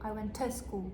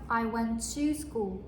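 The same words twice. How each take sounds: First: The word 'to' is reduced to 'tuh'. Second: The word 'to' has a full vowel. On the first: The speaker calls it right. "터" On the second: The speaker calls it wrong. "이라고 하지 않고"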